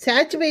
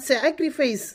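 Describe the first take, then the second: First: சாக்ரிஃபை said without the final s sound, echoing the mistake; correcting an elder's mispronunciation by first repeating it; wrong pronunciation. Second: சாக்ரிஃபைஸ் said with the final s clearly sounded; girl correcting the elder's English word; correct pronunciation. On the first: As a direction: clip the word to சாக்ரிஃபை, dropping the ending. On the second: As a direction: finish the word with a crisp s: சாக்ரிஃபைஸ். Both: Shown as a demonstration. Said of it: "சாக்ரிஃபை இல்லக்கா, சாக்ரிஃபைஸ்".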